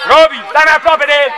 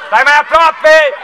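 First: Said in the usual way. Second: "aproape" drawn out slowly and stressed; slowed repeat. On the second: Real, not acted. Coach repeats the order to Robi, slow and stressed on "aproape". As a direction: spell out "Stai mai aproape" slowly, hitting "aproape".

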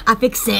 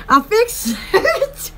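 First: Laughing through the words. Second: Drawn out through a laugh; slow laughing repeat. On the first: Laughing after fixing the window. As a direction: giggle it out, pleased. Laughing at her own fix. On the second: Repeating her window fix slowly, still laughing. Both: Real, not acted.

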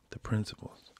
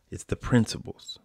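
First: Whisper. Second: Said in the usual way. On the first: Shown as a demonstration.

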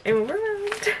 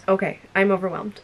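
First: High, squeaky repeat; small high-pitched wail of delight; overwhelmed squeal. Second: Said in the usual way. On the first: Real, not acted. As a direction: let the voice climb very high, overcome.

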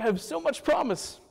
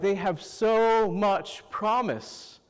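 First: Smug self-praise, tone lifted; self-satisfied. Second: Slow, admiring praise. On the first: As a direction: boast about yourself playfully. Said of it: "I'm like". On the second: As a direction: savor each word with admiration. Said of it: "they're like". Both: Retold or imitated.

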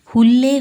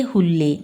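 First: Higher, louder call to the grass. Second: Said in the usual way. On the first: Acted. Old woman calling the grass, loud and high. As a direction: call ಹುಲ್ಲೇ out high and loud, as if across a yard.

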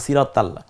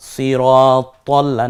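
First: Quick "সিরাত তাল্লা", open aa after t; wrong take, light "তা" in "তাল্লা"; light "তা" mispronunciation. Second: Slow "সিরাত তল্লা", heavy o after t; rounded "ত" pronunciation. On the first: ("তাল্লা"-তে আকার দিয়ে ভুল উচ্চারণ) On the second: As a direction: draw out "তল্লা" with its rounded vowel. ("তল্লা"-তে ভারী "ত", আকার ছাড়া) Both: Shown as a demonstration. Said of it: "তাল্লা বলবো না আমরা".

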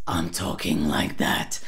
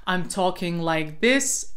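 First: Low growly rattled take; rattle voice. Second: Said in the usual way. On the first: Shown as a demonstration. Coach shows the transfer exercise, rattle voice. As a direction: switch into a deep raspy rattle. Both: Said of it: "try this transfer exercise in one breath".

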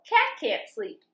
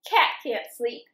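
First: Cat said much higher; higher refrain. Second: Said in the usual way. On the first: A narrator's reading. Reading to kids, refrain repeated in a much higher voice. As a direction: lift the whole line up high.

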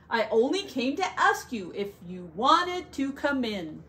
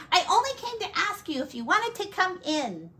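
First: Said in the usual way. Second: Higher, quick little frog; tiny frog voice. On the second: Acted. The frog invites the bear and buffalo in, high and quick. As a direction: chirp it out fast and high.

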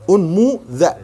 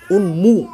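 First: "أنمو ذا" said as unmu-dha, with an open a on the dh; pronounced with u. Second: "أنمو" said with a rounded u at the start; pronounced with u. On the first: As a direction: spell out "أنمو ذا" in syllables with an open a on the dh. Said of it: "والذال مفتوحة". ("أنمو ذا" بالذال المفتوحة) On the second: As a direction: say "أنمو" as unmu, opening on a clear u. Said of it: "الهمزة مضمومة". ("أنمو" بهمزة مضمومة) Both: Shown as a demonstration.

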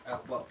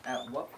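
Both takes have the same delivery.

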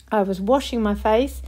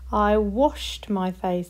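First: Said in the usual way. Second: Slowed down, each word clear; slow modelled past tense. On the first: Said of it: "read them in a sentence". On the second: Shown as a demonstration. Teacher modelling washed slowly for the class. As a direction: say it slowly so they hear washed. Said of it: "That one works".

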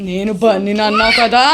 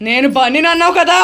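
First: Probing ghost. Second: Higher, climbing pitch to the end; insistent question. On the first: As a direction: stretch the last word questioningly. First take of ghost's question. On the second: Ghost asks about Bunny, higher and insistent. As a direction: press the question with a rising voice. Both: Pretend.

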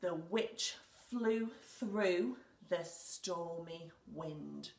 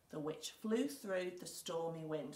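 First: Slow, word by word, for writing; slow dictation. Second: Said in the usual way. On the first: Shown as a demonstration. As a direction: spell it out slowly as you write. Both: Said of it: "I'm going to write".

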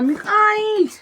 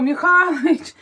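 First: Put-on much higher "Михалич" in a small girl's voice; "Михалич" mimicked as the daughter says it, much higher; child's way. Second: Loud, higher "Михалич" called across the yard; mother's own loud call of "Михалич". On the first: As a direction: copy the toddler echoing the call. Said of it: "Якось там по-своєму". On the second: Retold or imitated. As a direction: call the husband by name, out loud. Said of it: "Кричу".

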